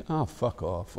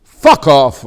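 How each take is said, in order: First: A softer, dismissive ah fuck off. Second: A sudden loud fuck off. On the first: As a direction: brush it off with "Ah, fuck off". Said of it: "or you can say". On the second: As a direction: blast the fuck off out. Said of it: "you can say fuck". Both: Shown as a demonstration.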